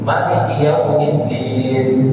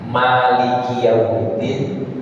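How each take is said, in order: First: The first vowel of Maliki is kept short. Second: The first vowel of Maliki is held long.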